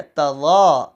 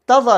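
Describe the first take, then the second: First: "تَظَا" with a long held zaa; drawn-out "تَظَا"; correct long vowel. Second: "تَظَا" short, higher and quick; abrupt "تَظَا" as a mistake; wrong short vowel. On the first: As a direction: stretch the second syllable of "تَظَا". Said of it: "زا کے اوپر کھڑی زبر ہے". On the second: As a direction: cut the za of "تَظَا" off. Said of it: "نہیں ہے". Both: Shown as a demonstration.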